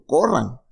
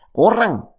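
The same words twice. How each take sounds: First: Said in the usual way. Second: Sudden high, loud call to run; preacher crying out for people to run; urgent cry. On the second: Pretend. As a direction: shout it like an alarm to flee. Urging them to run.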